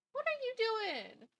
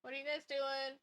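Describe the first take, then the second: First: Much higher sing-song voice for a pet; pet talk. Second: Said in the usual way. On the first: Real, not acted. Streamer turns to her cat, high pet talk. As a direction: coo it at a pet.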